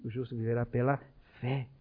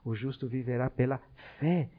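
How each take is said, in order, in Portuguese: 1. A palavra viverá é acentuada. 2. A palavra fé é acentuada. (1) "E o outro, ... que é a vida" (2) "o outro da fé"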